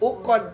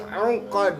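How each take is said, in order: First: The word begins with a plain vowel. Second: The word begins with a throaty ain sound. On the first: The speaker calls it wrong. "Bukan ukod" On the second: The speaker calls it right. "tapi ungkod. Pastiin a, ain"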